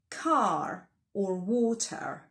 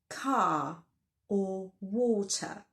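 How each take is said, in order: First: The final R sound is pronounced. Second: The final R sound is dropped. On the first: The speaker calls it wrong. "We don't say car or water" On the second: The speaker calls it right. "The final letter R is not pronounced"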